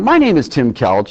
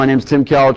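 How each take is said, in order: First: It sounds lively, warm and enthusiastic. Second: It sounds flat, with no enthusiasm. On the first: The speaker calls it right. "Use inflection in your voice. Go nice and slow, but yet excited" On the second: The speaker calls it wrong. "No enthusiasm, flat"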